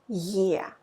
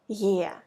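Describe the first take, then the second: The two takes are said the same way.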